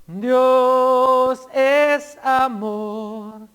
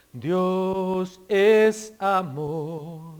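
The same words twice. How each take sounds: First: Louder proclaimed quote. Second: "Dios es amor" drawn out very slowly, each word stretched; slow soft quote. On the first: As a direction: ring out "Dios es amor" slowly, with stress on "es". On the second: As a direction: let "Dios es amor" linger slowly and gently. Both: Shown as a demonstration.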